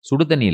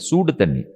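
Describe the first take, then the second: First: The first vowel is short and clipped. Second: The first vowel is stretched out long. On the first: The water is only mildly warm. The speaker calls it wrong. "சுடு தண்ணி இல்ல" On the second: The water is boiling hot. The speaker calls it right. "சூவ சூவன்னா ஆக்கி பாருங்க"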